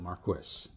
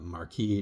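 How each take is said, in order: First: It is said the British way. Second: It is said the French way.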